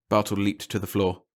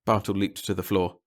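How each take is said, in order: Both takes have the same delivery.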